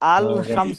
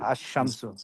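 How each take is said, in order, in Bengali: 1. আল-এর 'ল'-এর উচ্চারণ স্পষ্টভাবে শোনা যায়। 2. 'ল' মিশে যায় দ্বিত্ব 'শ' ধ্বনির সঙ্গে। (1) "এরকম হবে না" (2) "লামটা সাইলেন্ট হবে"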